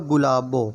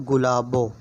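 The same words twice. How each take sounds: Both takes have the same delivery.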